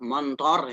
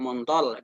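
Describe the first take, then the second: First: The final consonant is an R sound. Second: The final consonant is an L sound.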